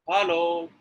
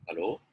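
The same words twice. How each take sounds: First: High HELLO, held long on the last syllable; raised, drawn-out hello; emphatic intonation. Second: Low, soft HELLO with a rising end; short, low, rising hello; questioning intonation. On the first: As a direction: pitch HELLO up and stretch it out. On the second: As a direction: say HELLO quietly, lifting at the end. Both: Shown as a demonstration. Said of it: "Do you think the meaning is changing?".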